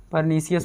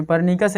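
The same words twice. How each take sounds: First: परनीसियस with "si-yas" after "nee"; soft s reading. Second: परनीकस with a k after "nee"; hard k reading. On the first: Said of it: "परनीसियस पढ़ते हैं". (परनीसियस में "सि" की आवाज़) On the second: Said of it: "कुछ लोग पढ़ते हैं". (परनीकस में "क" की आवाज़) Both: Shown as a demonstration.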